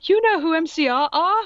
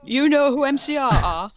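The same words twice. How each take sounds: First: High, louder gasping question; mock gasp. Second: Higher, louder stunned question; mock gasp repeated. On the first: Goth girl amazed at the teacher, mock gasp. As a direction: gasp it in shock. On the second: Goth girl amazed at the teacher, mock gasp again. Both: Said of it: "I gasped".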